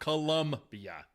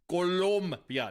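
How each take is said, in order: First: The second syllable has a 'u' vowel, 'lum'. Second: The second syllable has an 'o' vowel, 'lom'. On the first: The speaker calls it wrong. "not Colum" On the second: The speaker calls it right. "It's Colo, Colo, Colombia"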